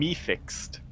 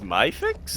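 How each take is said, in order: First: The first word sounds like 'me'. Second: The first word sounds like 'my'. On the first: The speaker calls it wrong. "I would have gone me fixed" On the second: The speaker calls it right. "so it's my fixed?"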